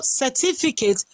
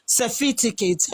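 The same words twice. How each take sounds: First: Said in the usual way. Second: Certificate said as "sefiticate", f and t swapped; mock the slip, saying certificate as "seh-FI-ti-ket"; mocking mispronunciation. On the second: Mocking someone's word for the debaters, certificate mispronounced as "sefiticate". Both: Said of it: "and you call certificate".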